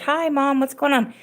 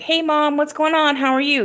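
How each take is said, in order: First: Casual hello. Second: Bright high greeting, much higher; sing-song hello to mom; greeting mom with a lifted voice; cheery hello. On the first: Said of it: "just like". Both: Retold or imitated.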